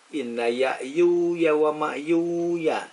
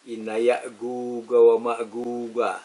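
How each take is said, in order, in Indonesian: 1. Konsonannya dilafalkan seperti bunyi y. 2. Konsonannya dilafalkan sebagai g keras. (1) "bacanya dengan iya" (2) "Yang membaca dengan yin"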